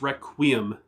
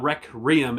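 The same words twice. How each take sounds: First: The word is said without any added r sound. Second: The word is said with an added r sound. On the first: The speaker calls it right. "it's Requiem" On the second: The speaker calls it wrong. "It's not Requiem"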